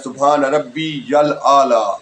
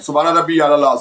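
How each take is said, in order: First: The phrase ends with the sound 'yal A'la'. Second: The phrase ends with the sound 'Allah'. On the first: The speaker calls it right. "दुरुस्त है" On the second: The speaker calls it wrong. "ये गलत है"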